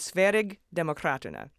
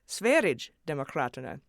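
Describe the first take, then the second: First: The G in Sverige is a hard G. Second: The G in Sverige sounds like a J. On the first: "which was close, but you all emailed me saying it was a soft G" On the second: "which I took to mean a J sound"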